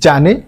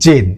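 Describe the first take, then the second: First: The name is said with two syllables. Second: The name is said as one syllable. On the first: "এর pronunciation হচ্ছে জানে" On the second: "আবার এর pronunciation হচ্ছে জেন"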